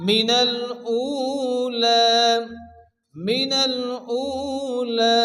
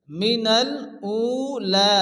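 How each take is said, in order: First: মিনাল উলা chanted, long "uu" and long "laa"; slow recited মিনাল উলা, ending drawn out; elongated vowels. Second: মিনাল উলা measured, nearer speaking pitch; careful teaching take of মিনাল উলা, long vowels; word-by-word model. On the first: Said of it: "এক আলিফ পরিমাণ টান দিয়ে পড়তে হবে". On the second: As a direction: read মিনাল উলা part by part for pupils. First word-by-word take before explanation. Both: Shown as a demonstration.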